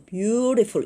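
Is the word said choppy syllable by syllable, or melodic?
melodic. The syllables flow together with a song-like melody. "영어는 어때? beautiful 이렇게 하잖아요"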